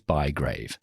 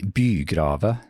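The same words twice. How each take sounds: First: The name is pronounced in an English way. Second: The name is pronounced in a Norwegian way. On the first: "the English pronunciation, which is Bygrave" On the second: "the Norwegians would sometimes say Bygrave"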